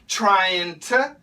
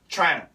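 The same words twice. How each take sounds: First: 'To' starts with a light T or D sound. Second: 'To' loses its T, merging with the N. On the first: "the most common pronunciations for to are going to be t and d" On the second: "the faster we say it, sounds like trying to"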